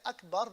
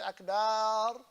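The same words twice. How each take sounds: First: The 'ba' sound is short. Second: The 'ba' sound is drawn out. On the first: The speaker calls it right. "they can't say Akbar" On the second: The speaker calls it wrong. "not to lengthen the ba"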